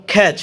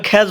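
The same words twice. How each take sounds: First: "খ্যাচ" ending in a crisp CH sound; corrected pronunciation. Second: "খ্যাচ" ending in a voiced J/Z sound; old habitual mispronunciation. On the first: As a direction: say catch as "খ্যাচ" with final CH. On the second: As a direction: say "খ্যাচ" like khyaj, not with CH. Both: Shown as a demonstration. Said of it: "এটাকে আমরা খ্যাচ বলতাম আগে".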